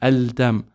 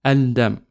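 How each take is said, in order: No difference in how they are said.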